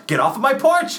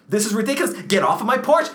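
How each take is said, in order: First: Second, more frantic order off the porch. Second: Raised, rising shout at the neighbor; first panicked order off the porch; panicked yell. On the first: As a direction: scream him off the porch. Repeated, higher and louder. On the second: Panicked homeowner yelling at neighbor. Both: Acted.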